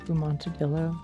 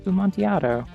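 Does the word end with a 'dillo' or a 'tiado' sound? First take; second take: dillo; tiado. First: The word ends with a 'dillo' sound. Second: The word ends with a 'tiado' sound. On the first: The speaker calls it wrong. "I know that's not how that's pronounced" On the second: The speaker calls it right. "It's Bumontiado"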